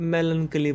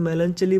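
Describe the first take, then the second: First: "melancholy" said with a hard k sound. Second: "melancholy" said with a ch as in church. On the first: Teacher showing students the other variant, "melancholy" with a k sound. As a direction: say "melancholy" as melan-KUH-lee. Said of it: "और कुछ लोग". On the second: Teacher showing students one variant, "melancholy" with a ch sound. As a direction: say "melancholy" as melan-CHUH-lee. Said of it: "इस word को कुछ लोग melancholy बोल देते हैं". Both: Shown as a demonstration.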